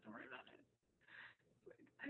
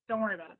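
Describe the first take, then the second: First: Hushed repeat. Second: Said in the usual way. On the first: Retold or imitated. Repeated, drops to near whisper.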